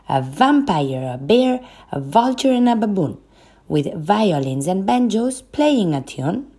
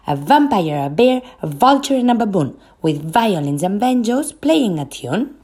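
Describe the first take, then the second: First: It is spoken at a fast pace. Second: It is spoken at a very fast pace. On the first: "Now, faster" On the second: "Faster and faster"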